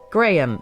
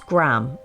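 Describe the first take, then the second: First: It is said in a British accent. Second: It is said in an American accent.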